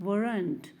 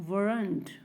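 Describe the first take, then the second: The two takes are said the same way.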